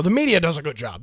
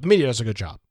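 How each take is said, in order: First: Quick mock praise of the media, tongue in cheek; sarcastic. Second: Lower, dry repeat of the mock praise; deadpan sarcasm. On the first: Host mocking critics who call the media fair, fast sarcastic. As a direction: toss it off fast as an obvious lie. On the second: Host repeating the claim to listeners, lower deadpan sarcasm. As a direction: drop the pitch and let the irony sit.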